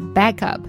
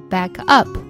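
First: The stress falls on back. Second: The stress falls on up. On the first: It is a noun. "它是名词形式，所以呢重音在back" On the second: It is a verb phrase. "重音在up 上，因为这是一个动词短语"

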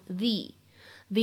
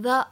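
First: The word is said with a long 'thee' vowel. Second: The word is said with a short 'thuh' vowel. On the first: The speaker calls it right. "而需要读成the idea" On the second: The speaker calls it wrong. "此时不能读成the"

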